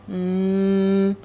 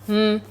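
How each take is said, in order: First: The sound is drawn out slowly. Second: The sound is said quickly and briefly. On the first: "say it slow" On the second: "do it fast"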